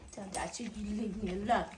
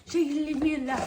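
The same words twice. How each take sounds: First: Said in the usual way. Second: Higher and louder, pushing the question; louder repeat. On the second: Acted. Owner asking the dog again whether Dad should leave her alone, louder.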